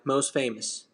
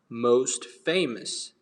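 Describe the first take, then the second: First: The T at the end of 'most' is dropped. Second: The T at the end of 'most' is pronounced. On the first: "but in American, ... it's going to sound like most famous ... The T is removed" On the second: "in British English, it's going to sound most famous"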